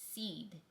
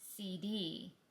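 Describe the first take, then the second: First: The name is spoken as one single-syllable word. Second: The name is spoken as two separate letters. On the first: The speaker calls it right. "it's spelled C D and pronounced seed" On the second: The speaker calls it wrong. "Everyone in the brokerage business keeps pronouncing this name as C D and Company"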